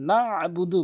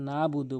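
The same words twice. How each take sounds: First: A pressed throat consonant follows the first vowel. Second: The throat consonant after the first vowel is dropped. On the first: The speaker calls it right. "হলকের মাঝখান থেকে ... বলতে হবে চাপ দিয়ে" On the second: The speaker calls it wrong. "আইনের উচ্চারণটি বাদ দিয়ে ফেলে"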